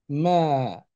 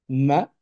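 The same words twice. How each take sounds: First: The vowel is long. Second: The vowel is short.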